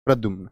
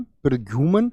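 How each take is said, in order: First: प्रद्युम्न with m and n joined; lower, falling प्रद्युम्न, no vowel between m and n; correct pronunciation. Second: प्रद्युमन with a vowel before the final n; misspelt pronunciation. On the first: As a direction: say प्रद्युम्न as pra-dyumn. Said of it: "प्रद्युम्न जिसको हम कहते हैं". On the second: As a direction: end प्रद्युमन in a full "-man". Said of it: "सही वर्तनी बताएंगे". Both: Shown as a demonstration.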